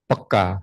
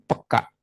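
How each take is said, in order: First: The word ends openly on the vowel. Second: The word ends with a sharp glottal catch. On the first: "peka itu sensitif" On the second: "kasih tanda hapus koma di atas"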